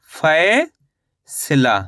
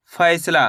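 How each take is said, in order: First: फैसला very slowly, long gap after फै; syllable by syllable. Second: Said in the usual way. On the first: Shown as a demonstration. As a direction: break फैसला apart: stretched rising फै, pause, then सला falling. (फैसला को तोड़कर, बहुत धीरे-धीरे) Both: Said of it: "तो मिलके बन गया ये".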